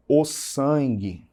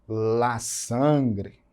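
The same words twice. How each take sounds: First: Said in the usual way. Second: "la sangre" in Spanish with gr and final e; deliberate Spanish "la sangre"; Spanish pronunciation. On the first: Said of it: "Em português eu digo". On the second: Shown as a demonstration. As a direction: pronounce "la sangre" carefully as Spanish. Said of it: "Em espanhol".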